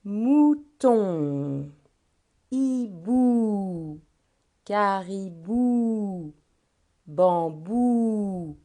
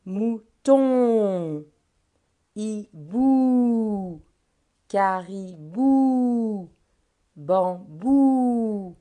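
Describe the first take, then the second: First: Each word stretched long, "Mouton", "hibou", "caribou", "bambou" with the final sound held; drawn-out word list. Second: "Mouton", "hibou", "caribou", "bambou" said louder, the final "on" and "ou" pushed out and held; louder repeat, endings stressed. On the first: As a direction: read the words slowly so the endings can be heard. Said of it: "on va faire le premier ensemble". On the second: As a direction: say it again louder and lean on each word's last sound. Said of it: "Je redis les mots". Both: Shown as a demonstration.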